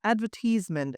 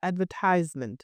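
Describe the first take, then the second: First: "advertisement" as ad-VER-tiz-ment; British advertisement. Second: "advertisement" as ad-ver-TIZE-ment; American advertisement. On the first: Teacher showing British advertisement as ad-VER-tiz-ment. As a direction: stress "advertisement" on second syllable, short tiz. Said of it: "in British". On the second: Teacher showing American advertisement as ad-ver-TIZE-ment. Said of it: "in American it's". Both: Shown as a demonstration.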